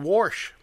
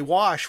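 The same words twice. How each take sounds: First: The word is said in a Western Pennsylvania way. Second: The word is said in a standard way. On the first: "we say wash" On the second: "we don't say wash"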